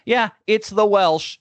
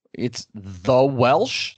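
First: High, slow, playful "Yeah, it's the Welsh"; proud confirmation. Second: Slow, confused "the Welsh?" with a rising end; puzzled question. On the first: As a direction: own the nickname with mock pride. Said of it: "I was just like". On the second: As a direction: imitate someone baffled by the name. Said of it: "people would be like". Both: Retold or imitated.

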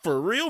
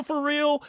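First: Said in the usual way. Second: "for real" repeated high and emphatic; stress on real. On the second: Shown as a demonstration. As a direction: lift "real" way up, insisting.

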